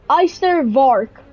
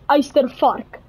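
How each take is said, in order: First: It is said with an English accent. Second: It is said with an Afrikaans accent. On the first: The speaker calls it wrong. "this is a very wrong pronunciation" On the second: The speaker calls it right. "how you would actually pronounce that is"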